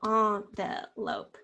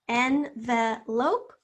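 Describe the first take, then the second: First: Envelope in slow syllables, starting AHN. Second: Envelope in slow syllables, starting EN. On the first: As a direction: draw out ON-ve-lope. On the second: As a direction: draw out EN-ve-lope. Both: Shown as a demonstration. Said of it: "Which one do you say?".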